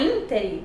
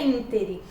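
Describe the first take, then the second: First: The stress falls on the last syllable. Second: The stress falls on the first syllable. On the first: The speaker calls it wrong. "vai ser é oxítona" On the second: The speaker calls it right. "é proparoxítona, então a forma correta é intere"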